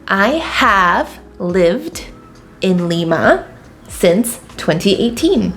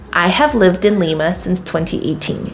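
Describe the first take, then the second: First: It is said slowly and carefully. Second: It is said at a natural pace.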